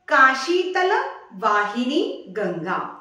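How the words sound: The first words are run together as one. It states the Ganga flows through Kashi.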